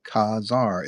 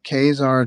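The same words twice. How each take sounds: First: The first syllable has an open 'ah' vowel. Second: The first syllable sounds like the letter K. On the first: The speaker calls it right. "like la la la" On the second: The speaker calls it wrong. "just sounds like I don't know K Smith"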